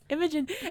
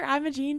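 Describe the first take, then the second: First: The last syllable has a short, reduced vowel. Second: The last syllable has a long 'ee' vowel. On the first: The speaker calls it right. "It's Imogen" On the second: The speaker calls it wrong. "You have called her Imogene so much"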